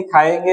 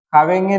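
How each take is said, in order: First: Said in the usual way. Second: खावेंगे with a "v": "khaavenge"; added v sound. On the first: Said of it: "खाएंगे या फिर खाएंगे". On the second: Shown as a demonstration. Teacher showing students a wrong verb form, "v" in खावेंगे. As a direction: put a "v" glide in खावेंगे. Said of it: "नहीं".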